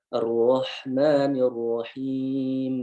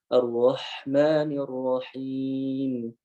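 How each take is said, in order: Both takes have the same delivery.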